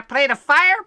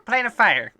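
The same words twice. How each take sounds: First: "Plane of Fire" higher and louder, rising at the end; questioning echo. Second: "Plane of Fire" settling with a falling end; musing repeat. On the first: Rufus asked about villages, querying "Plane of Fire" with a rise. Character echoes the question, puzzled. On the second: Rufus thinking back, musing "Plane of Fire" with a fall. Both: Acted.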